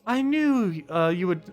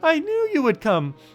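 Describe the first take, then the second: First: It is said in his own normal voice. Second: It is said in a put-on female voice.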